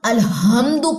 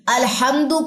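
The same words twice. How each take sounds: First: The h is a plain soft sound. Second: The h is a harsh throaty sound. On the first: The speaker calls it wrong. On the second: The speaker calls it right.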